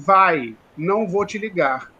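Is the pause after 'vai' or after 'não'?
after vai. The pause comes right after "vai".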